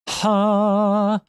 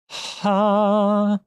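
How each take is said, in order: First: The vowel starts with a sudden, sharp h. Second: The same.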